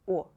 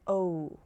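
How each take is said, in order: First: The vowel is short and stays pure. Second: The vowel glides into an extra sound. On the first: The speaker calls it right. "This sound is short, without any additional sounds" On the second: The speaker calls it wrong. "It's not like O. It's not like English letter O, like no"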